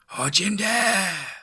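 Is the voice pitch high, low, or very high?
very high. It is said at a very high pitch.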